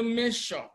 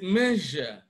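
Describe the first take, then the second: First: The middle consonant is a voiceless sh sound. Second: The middle consonant is a voiced zh sound. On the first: The speaker calls it wrong. "it is wrong to say measure" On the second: The speaker calls it right. "It is measure, j"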